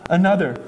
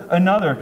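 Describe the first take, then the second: No difference in how they are said.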